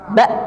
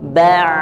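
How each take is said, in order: First: The sound is cut off abruptly at the end. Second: The sound flows on smoothly from the throat. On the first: The speaker calls it wrong. "ba bukan" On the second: The speaker calls it right. "tapi mengalir"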